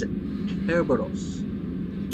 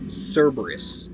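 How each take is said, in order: First: The name begins with a hard K sound. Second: The name begins with a soft S sound. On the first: This is the proper Greek pronunciation. The speaker calls it right. "it's a hard K" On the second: This is not the proper Greek pronunciation. The speaker calls it wrong. "not a soft C"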